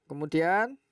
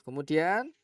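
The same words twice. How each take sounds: The two takes are said the same way.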